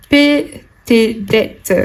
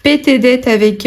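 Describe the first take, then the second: First: Slow dramatic read. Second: Said in the usual way. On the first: Acted. Repeats card text dramatically.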